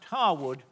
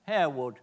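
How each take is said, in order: First: The first syllable sounds like 'har'. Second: The first syllable sounds like 'hair'. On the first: This is the family's house. "is pronounced Harwood" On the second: This is the village near Leeds. "is pronounced as it's spelt"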